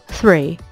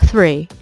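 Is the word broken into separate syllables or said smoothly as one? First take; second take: smooth; smooth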